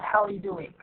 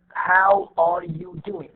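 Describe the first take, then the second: First: The words are reduced and run together. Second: Every word is said fully and separately. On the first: "the reduced one" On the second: "This is the long form"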